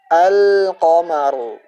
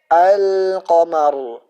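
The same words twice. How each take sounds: The two takes are said the same way.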